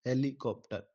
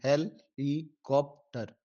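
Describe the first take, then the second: First: Said in the usual way. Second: Slow, syllable by syllable; split into syllables. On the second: Shown as a demonstration. Teacher showing students the syllable split, slowly. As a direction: break the word helicopter into slow separate syllables, he-li-kop-tar. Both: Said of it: "तो इसके चार लफ्ज़ हैं".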